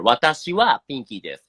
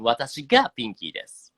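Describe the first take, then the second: First: 私はピンキーです with は stressed, fast; quick demo leaning on は. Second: 私がピンキーです with が stressed, fast; quick demo leaning on が. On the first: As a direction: lean on は, the topic particle. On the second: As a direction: lean on が, the subject particle. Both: Shown as a demonstration. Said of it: "You see the difference here".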